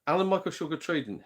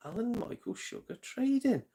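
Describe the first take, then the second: First: Said in the usual way. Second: Higher, drawn-out Alan Michael Sugar Trading as it clicks; realising aloud. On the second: Real, not acted. Realising Amstrad's name to the chat, excited. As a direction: say it like the penny just dropped. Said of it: "Hence, Amstrad".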